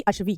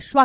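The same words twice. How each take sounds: First: अश्वी ending in a long ee; अश्वी with final "vee"; wrong ee ending. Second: अश्वा ending in a long aa; अश्वा with final "vaa"; correct aa ending. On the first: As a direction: say अश्वी as "ashvee". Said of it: "ना कि अश्वी". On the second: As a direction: say अश्वा as "ashvaa". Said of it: "अश्वा कहते हैं". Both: Shown as a demonstration.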